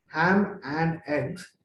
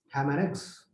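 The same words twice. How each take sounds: First: "ham and eggs" very slow, each word apart; full separate words. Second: "ham and eggs" run together, softly and quicker; squeezed together. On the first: Teacher setting up the squeeze, very slow separate words. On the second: Teacher answering how it is squeezed, words run together. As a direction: squeeze "Ham and eggs" into one linked unit. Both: Shown as a demonstration. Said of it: "squeezed into how?".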